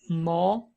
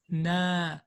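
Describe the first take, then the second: First: The vowel is heavy and deep, with full mouth. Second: The vowel is thin and light, with open mouth. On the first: The speaker calls it wrong. "I don't say no" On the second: The speaker calls it right. "I say na, na ... So it's always thin"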